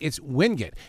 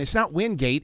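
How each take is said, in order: First: It is said the way locals say it. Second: It is said the way outsiders say it.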